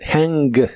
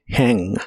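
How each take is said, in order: First: The final g sound is fully pronounced. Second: The final g sound is cut short. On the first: The speaker calls it wrong. "No digas hang" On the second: The speaker calls it right. "di solamente hang, Como si solo dijeras la primera mitad de la G"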